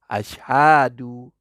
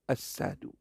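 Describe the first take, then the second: First: The middle consonant is an sh sound. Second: The middle consonant is a plain s sound. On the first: The speaker calls it right. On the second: The speaker calls it wrong. "Dia tak boleh sebut shim tu betul-betul. Dia jadi sim"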